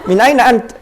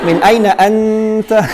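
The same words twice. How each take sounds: First: The vowels are said plainly like everyday speech. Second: The vowels are drawn out in recitation style. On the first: The speaker calls it right. "biasa saja" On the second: The speaker calls it wrong.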